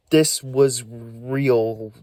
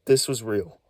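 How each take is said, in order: First: Slow, drawn-out insistence on this; slow emphatic repeat. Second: Said in the usual way. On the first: Real, not acted. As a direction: lean hard on every word. Insisting this was real.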